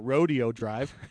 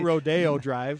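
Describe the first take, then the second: First: Rodeo sounds like the cowboy event rodeo. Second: Rodeo does not sound like the cowboy event. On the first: This is how cowboy folk from Utah say it. "what we call Rodeo Drive" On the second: This is how most people say it. "not Rodeo Drive"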